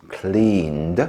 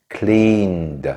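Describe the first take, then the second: No difference in how they are said.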